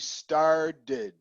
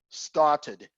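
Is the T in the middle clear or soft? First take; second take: soft; clear. First: The middle T is soft, barely heard. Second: The middle T is clearly pronounced. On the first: "North American people we will say started, and you'll never hear the T" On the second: "British people will say started"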